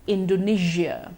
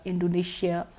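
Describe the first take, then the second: First: The middle consonant is a voiced 'zh' sound. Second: The middle consonant is a voiceless 'sh' sound. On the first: The speaker calls it right. "the correct pronunciation is actually with the j sound" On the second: The speaker calls it wrong. "we've been using the sh so far"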